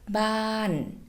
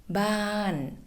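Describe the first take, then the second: First: The pitch falls from high to low. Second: The pitch falls from high to low.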